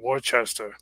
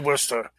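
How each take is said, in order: First: It is said the way outsiders pronounce it. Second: It is said the way locals pronounce it. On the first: "a lot of people say Worcester" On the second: "we say Worcester"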